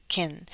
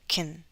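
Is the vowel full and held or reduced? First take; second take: reduced; reduced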